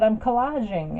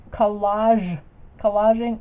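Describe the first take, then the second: First: Said in the usual way. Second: "Collage, collaging" repeated louder and spelled out clearly. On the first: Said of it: "maybe it's my accent". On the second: Retold or imitated. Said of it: "I never heard it said collaging".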